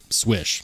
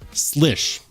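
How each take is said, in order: First: The name begins with an sw sound. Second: The name begins with an sl sound. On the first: This is how the knife maker says to say it. "according to Spyderco ... they say pronounce it Swish" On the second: This is how the name is usually said in Poland. "in Poland, ... is commonly pronounced Slish"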